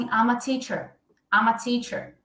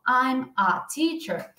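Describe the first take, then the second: First: I'm a linked into ama before teacher; linked natural version. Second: I'm a teacher slow, I'm and a kept apart; slow separated version. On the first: Teacher showing students the natural linked form, quick ama. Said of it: "a gente tende a falar assim". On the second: Teacher contrasting the careful way with the natural one, slow. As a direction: drag out I'm a teacher word by word. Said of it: "ao invés de eu falar". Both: Shown as a demonstration.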